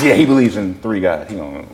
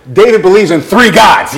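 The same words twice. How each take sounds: First: Lower, trailing-off echo; dismissive aside. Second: Raised, high teasing announcement; calling out. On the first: Store owner agrees with his friend about Dave, low dismissive aside. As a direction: agree under the breath, fading away. Second person echoes the taunt. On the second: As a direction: announce it across the store. Store owners call out a taunt. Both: Retold or imitated.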